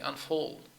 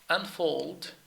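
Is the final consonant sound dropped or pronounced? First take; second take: dropped; pronounced. First: The final consonant sound is left off. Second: The final consonant sound is clearly pronounced. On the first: The speaker calls it wrong. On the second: The speaker calls it right.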